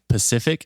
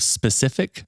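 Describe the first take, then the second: First: The word begins with a plain 'p' sound. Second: The word begins with an 'sp' cluster. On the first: The speaker calls it wrong. "saying Pacific" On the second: The speaker calls it right. "instead of specific"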